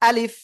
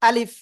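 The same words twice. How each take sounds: No difference in how they are said.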